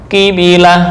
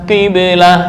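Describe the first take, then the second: The two takes are said the same way.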